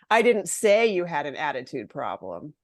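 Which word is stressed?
say. The stress falls on the word say. It was written rather than said. "Maybe I wrote it in an email"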